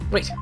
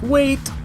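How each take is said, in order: First: It is said flatly and calmly. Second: It is shouted as a loud exclamation.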